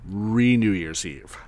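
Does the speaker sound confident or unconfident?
confident. It is said boldly and with confidence. The speaker calls it right. "say it with some panache, some confidence"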